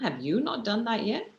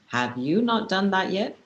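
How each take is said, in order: First: It sounds mocking, as if the listener is silly. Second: It sounds demanding, like giving orders.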